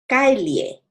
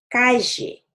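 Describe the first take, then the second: First: The double-l is pronounced as an L-like sound. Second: The double-l is not pronounced as an L-like sound.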